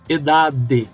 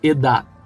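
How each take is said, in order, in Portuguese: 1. O d final é solto, com uma vogal acrescentada. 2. O d final é suave, sem vogal depois. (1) "e não edade" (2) "ela tem um som bem suave, como se você fosse pronunciar e parasse"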